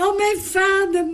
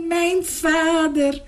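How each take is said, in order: First: High, ringing cry of joy; joyful cry. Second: Tearful repeat. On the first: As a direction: call out to his father, high and glad. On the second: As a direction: let it break into happy tears, slowly. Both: Acted. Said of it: "riep hij".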